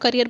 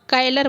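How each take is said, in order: First: It is said as 'carrier' with an r sound. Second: It is said as 'kaylar' with an l sound. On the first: The speaker calls it right. "आप करियर बोलते नहीं है" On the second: The speaker calls it wrong. "कायलर बोलते हैं"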